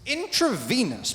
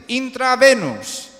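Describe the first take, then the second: First: Slow Intravenous said "in-truh-VEE-nuhs"; correct intravenous. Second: Slow, loud intravenous as "in-tra-VE-nus"; mispronounced intravenous. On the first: Shown as a demonstration. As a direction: model the English Intravenous carefully. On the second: Retold or imitated. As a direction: exaggerate the Spanish Intravenous. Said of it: "Es lo que me dicen".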